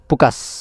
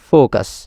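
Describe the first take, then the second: First: It begins with a puffed p-like sound. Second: It begins with a true f sound. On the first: The speaker calls it wrong. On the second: The speaker calls it right.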